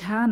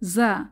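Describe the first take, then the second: First: It starts with an aspirated 'jh' sound. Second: It starts with a buzzing 'z' sound. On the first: The speaker calls it wrong. "ঝা না" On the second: The speaker calls it right. "এই যে ভাইব্রেশন সাউন্ডে জা"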